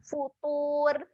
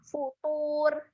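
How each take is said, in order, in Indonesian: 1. Bunyi r di akhir itu tipis dan ringan. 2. Bunyi r di akhir itu tipis dan ringan.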